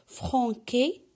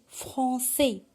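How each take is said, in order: First: The C is pronounced as a hard K sound. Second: The C is pronounced as a soft S sound. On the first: The speaker calls it wrong. "pour ne pas la prononcer franquée" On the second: The speaker calls it right. "j'ai ajouté la cédille pour la prononcer C"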